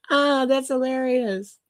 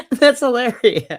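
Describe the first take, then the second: First: Chuckling. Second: Laughing. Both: Real, not acted.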